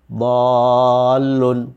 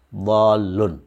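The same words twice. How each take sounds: First: The first vowel is held very long. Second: The first vowel is held only briefly. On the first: This is the Quranic recitation reading. "Seperti dhallun" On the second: This is the reading in ordinary Arabic.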